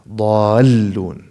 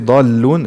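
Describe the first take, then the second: First: The doubled l sound is clearly held. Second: The doubled l sound is cut short. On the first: The speaker calls it right. "to pronounce اللام المشددة" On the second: The speaker calls it wrong. "it's wrong. It sounds wrong"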